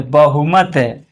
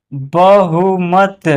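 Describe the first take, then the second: First: Said in the usual way. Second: "बहुमत" very slow in separate syllables. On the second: Shown as a demonstration. Teacher spelling out an example, "बहुमत" slow and split. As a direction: sound out "बहुमत" piece by piece.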